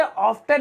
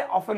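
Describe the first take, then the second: First: "often" said as "off-ten", T pronounced; "often" with a clear hard T in the middle; often with the T sounded. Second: "often" said as "off-en", no T; "often" the British way, F straight into a soft "-en"; often with silent T. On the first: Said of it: "इसे often नहीं बोलेंगे". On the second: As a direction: drop the T in "often". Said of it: "इसे often बोलते हैं". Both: Shown as a demonstration.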